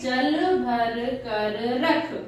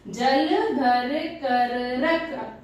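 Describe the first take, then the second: First: The sentence is read quickly. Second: The sentence is read slowly.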